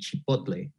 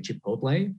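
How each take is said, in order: First: The word is said with Spanish pronunciation. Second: The word is said with English pronunciation. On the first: "the correct pronunciation in Spanish" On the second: "It's okay in English to say chipotle"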